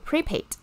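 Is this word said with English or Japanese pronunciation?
English. It is said with English pronunciation.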